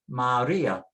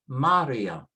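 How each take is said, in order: First: The stress falls on the ri syllable. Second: The stress falls on the ma syllable. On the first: "It tells you where to put the stress" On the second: "If we didn't have the accent, it would be"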